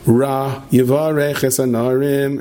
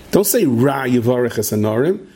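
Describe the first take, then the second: First: Slow drawn-out chant; sung, wife's bedtime prayer. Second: Said in the usual way. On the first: Retold or imitated. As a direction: chant the verse slowly, syllable by syllable. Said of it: "And she goes like this".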